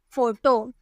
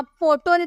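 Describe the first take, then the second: First: 'फोटो' begun with F, 'foto'; F sound. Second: 'फोटो' begun with a P, 'poto'; P instead of F. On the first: Teacher answering what we will say, 'फोटो' with an F. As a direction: read the PH of 'फोटो' as F. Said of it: "फ में pronounce करेंगे". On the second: Teacher showing what cannot be said, 'फोटो' as poto. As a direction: wrongly read the PH of 'फोटो' as P. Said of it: "तो नहीं बोल सकते". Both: Shown as a demonstration.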